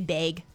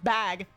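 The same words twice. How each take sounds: First: It is said with a Minnesota accent. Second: It is said with a neutral accent.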